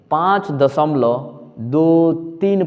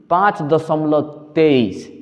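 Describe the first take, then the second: First: दो तीन अलग-अलग अंक बोलकर, धीमे; "दो तीन" को तेईस नहीं, एक-एक करके बोलो; digit by digit. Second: "तेईस" को एक संख्या की तरह, धीमे; गलत तरीका: दशमलव के बाद "तेईस" एक साथ; wrong grouped reading. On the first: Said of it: "तब सही है।". (दशमलव के बाद "दो तीन" अलग-अलग) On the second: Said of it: "तो गलत है". (दशमलव के बाद "तेईस" जोड़कर गलत पढ़ना) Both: Shown as a demonstration.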